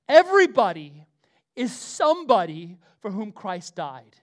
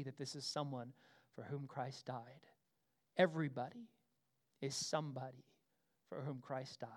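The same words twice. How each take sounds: First: Proclaimed. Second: Soft, low restatement; quiet, lower echo of the big line; hushed. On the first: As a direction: boom it out to the back row. Proclaiming the key line. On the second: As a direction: let it sink in quietly. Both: Acted.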